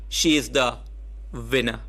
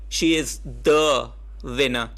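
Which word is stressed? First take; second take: winner; the. First: The word winner carries the emphasis. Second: The word the carries the emphasis.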